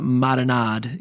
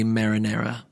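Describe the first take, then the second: First: The word ends clipped, without its final vowel. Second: The word is said in full with its final vowel. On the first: The speaker calls it right. "You say uh, marinade" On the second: The speaker calls it wrong. "you don't say marinara"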